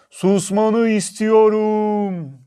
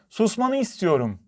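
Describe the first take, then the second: First: High, loud, very slow echoing call; mountain echo. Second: High-pitched, mildly cross demand; annoyed little girl. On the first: Mountain repeats the girl's demand, long loud echo. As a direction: boom it back with long stretched vowels. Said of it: "Karşıki dağdan bir ses geldi". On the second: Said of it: "Küçük kızın sinirleri bozuldu". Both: A narrator's reading.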